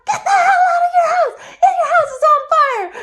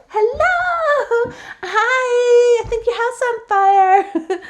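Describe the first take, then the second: First: High, loud frantic yell through laughter; shout. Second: Loud high singsong greeting; overly polite alarm with a laugh; mock polite warning. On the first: Retold or imitated. Kind friend yelling at a neighbour to flee, frantic shout. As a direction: scream at them to get out now. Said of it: "to shout". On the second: Timid nice warning again.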